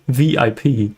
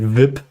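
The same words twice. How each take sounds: First: It is spelled out letter by letter. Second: It is said as a single word. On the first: The speaker calls it right. "We say" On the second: The speaker calls it wrong. "we don't say"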